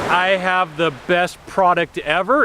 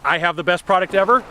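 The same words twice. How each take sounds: First: It sounds uneasy, with an unsure vocal pitch. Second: It sounds assured, with a steady vocal pitch.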